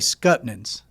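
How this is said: It is said in a clipped Southern rural form.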